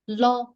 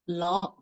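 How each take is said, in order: First: The pitch stays level and high. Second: The pitch starts low and rises. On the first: "The second" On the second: "The fourth"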